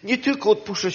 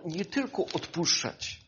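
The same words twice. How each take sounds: First: "Nie tylko odpuszczać" at full voice, stress on "tylko"; emphatic repetition; emphatic repeat. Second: "nie tylko odpuszczać" said softly, stress on "tylko"; hushed first take; lowered voice before repeating; quiet. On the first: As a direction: repeat it firmly to the congregation. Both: Real, not acted. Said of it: "wiecie co".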